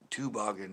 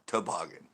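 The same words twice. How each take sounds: First: The key vowel sounds like ooh. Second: The key vowel sounds like ah. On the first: The speaker calls it right. "So it's a an ooh" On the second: The speaker calls it wrong. "not an ah"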